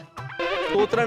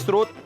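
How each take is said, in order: First: The word begins with st and ends in tra. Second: The word begins with sr and ends in t. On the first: The speaker calls it wrong. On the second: The speaker calls it right.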